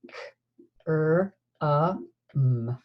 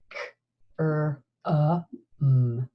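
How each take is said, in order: Both takes have the same delivery.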